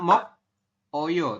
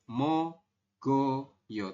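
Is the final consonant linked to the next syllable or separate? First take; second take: separate; linked. First: The k sound is kept apart from oyo. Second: The consonant links as g into oyo. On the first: This is how it is written. "Tulisannya mok oyo" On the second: This is how it is actually read. "tapi kita bacanya nanti mogoyo"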